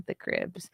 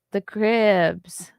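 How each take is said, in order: First: Said in the usual way. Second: The Cribs, louder, with Cribs drawn out and hit hard; stress on Cribs. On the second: Shown as a demonstration. Setting the Crips mix-up straight, stressing Cribs. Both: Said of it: "not the Crips".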